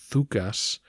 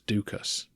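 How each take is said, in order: First: The name starts with a soft th sound. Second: The name starts with a hard d sound. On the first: This is how the name sounds in Greek. "in Greek that name should sound more like Thukas" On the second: This is the customary pronunciation used in the series. "I'll continue with the pronunciation we've established"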